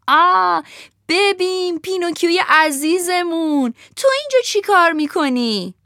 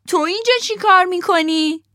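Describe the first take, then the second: First: Fawning fox greeting the puppet; sly fox voice. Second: Much higher, louder cat parroting the fox; cat repeats the fox, higher still; echoing cat voice. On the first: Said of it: "روباهه ... بعد گفت". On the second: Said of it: "گربهه تکرار کرد". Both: Acted.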